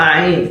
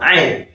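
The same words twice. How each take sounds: First: "Ain" with a plain vowel onset, no throat consonant; wrong Ain. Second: "Ain" with the Arabic throat consonant; correct Ain. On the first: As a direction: demonstrate the non-Arabic "Ain". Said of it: "it's not Ain". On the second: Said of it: "It is what?". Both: Shown as a demonstration.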